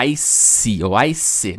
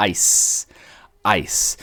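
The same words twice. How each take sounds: First: ICE wrongly as "ice-ee" or "ice-eh"; sounded final E. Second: ICE as one syllable ending in a hissed S; careful English ICE; silent final E. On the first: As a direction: add a second syllable to ICE. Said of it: "não vai pronunciar o E no final". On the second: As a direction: say ICE with no vowel after the S. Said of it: "Não, a gente tá falando". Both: Shown as a demonstration.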